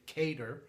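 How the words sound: Qatar is said with an American pronunciation.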